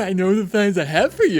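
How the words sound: It is said in a Valley Girl voice. "this one's called The Valley Girl"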